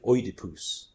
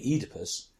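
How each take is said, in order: First: Oedipus said the Greek way, opening on an "oy" sound, ending "-poos"; Greek pronunciation. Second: Said in the usual way. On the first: Shown as a demonstration. Adviser showing how actors said the Greek names, Oedipus in authentic Greek pronunciation, "OY-di-poos". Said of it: "with the Greek pronunciation". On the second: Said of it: "make the Greek names strange".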